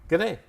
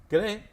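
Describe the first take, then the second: The two takes are said the same way.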